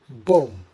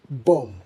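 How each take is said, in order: First: The final b sound is silent. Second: The same.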